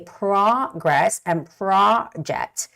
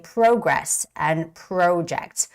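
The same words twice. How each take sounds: First: American accent, with a wide-open jaw on the O. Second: Canadian accent, with a different O vowel. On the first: "in American English, ... we open up our jaws right here" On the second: "Canadian people would say"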